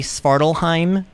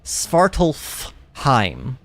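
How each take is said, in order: First: No f sound is pronounced before heim. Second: An f sound is pronounced before heim. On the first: "the F is just not going to exist there" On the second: "You're technically supposed to pronounce this word Svartalfheim"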